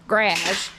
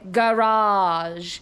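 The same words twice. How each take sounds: First: It is said with a Canadian pronunciation. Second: It is said with an American pronunciation. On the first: "that's the Canadian way of saying it is garage" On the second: "Americans say garage"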